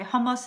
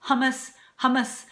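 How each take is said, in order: First: Hummus as HOE-moos, rounded vowels; acceptable pronunciation. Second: Hummus as HUH-muss, twice; wrong pronunciation. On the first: Cook contrasting right with wrong, rounded pronunciation. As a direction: say hummus with oh, not uh. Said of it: "hummus instead of". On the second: Cook showing what to avoid, mispronounced. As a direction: say hummus with flat English uh vowels. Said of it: "instead of". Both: Shown as a demonstration.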